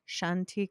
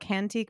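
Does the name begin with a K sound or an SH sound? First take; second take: SH sound; K sound. First: The name begins with a soft SH sound. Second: The name begins with a hard K sound. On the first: The speaker calls it right. "I think it's like Shantique" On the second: The speaker calls it wrong. "I want to call it Cantique"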